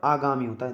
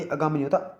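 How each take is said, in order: First: आगामी opening on long "aa"; correct pronunciation. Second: आगामी opening on short "a"; wrong pronunciation. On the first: Teacher corrects it for students, careful pronunciation. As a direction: say आगामी as "aa-gaa-mi". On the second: Teacher reads students the wrong form, mispronounced. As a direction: say आगामी as "uh-gaa-mi". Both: Shown as a demonstration.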